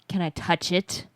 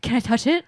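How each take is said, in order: First: It is said in a creepy, leering voice. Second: It is said in a curious, excited voice. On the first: "I set him to creeper mode" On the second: "He was just curious or just like excited"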